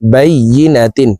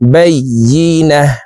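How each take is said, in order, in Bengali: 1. শব্দটি 'tin' অক্ষর দিয়ে শেষ হয়। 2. শব্দটি থেমে যাওয়া 'h' ধ্বনি দিয়ে শেষ হয়।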